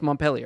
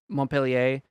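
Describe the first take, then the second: First: The name is pronounced with an American-style pronunciation. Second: The name is pronounced with a French-style pronunciation. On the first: This is how the name is said locally. "it's been Americanized" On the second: This is closer to the original French name. "that's more the French pronunciation"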